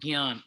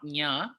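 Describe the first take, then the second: First: The word begins with a slight g sound. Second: The word begins with an ny sound. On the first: The speaker calls it right. "It's slightly more gyan" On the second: The speaker calls it wrong. "not nya"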